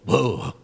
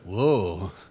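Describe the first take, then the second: First: It sounds put off and repulsed. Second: It sounds impressed and admiring. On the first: The woman seen is unattractive. "God could have made Bathsheba ugly so that when David saw her, he would go" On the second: The woman seen is attractive. "instead of"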